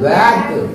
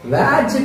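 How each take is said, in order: First: The word ends with a hard g sound. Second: The word ends with a j sound. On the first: The speaker calls it right. "జీ వస్తే దాని శబ్దం గ" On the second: The speaker calls it wrong. "వ్యాజ్ కాదు"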